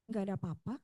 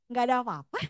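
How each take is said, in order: First: It is said in a gloomy, sulky way. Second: It is said in a light, cheerful way.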